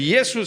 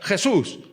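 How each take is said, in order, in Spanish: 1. El nombre empieza con un sonido 'ee'. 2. El nombre empieza con un sonido 'h' gutural.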